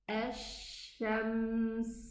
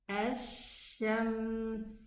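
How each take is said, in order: The two takes are said the same way.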